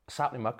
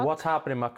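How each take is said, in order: First: The greeting is clipped and run together quickly. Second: The greeting is said fully with every syllable. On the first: "we say very fast" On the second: "We get rid of the watch, we just say, sapling"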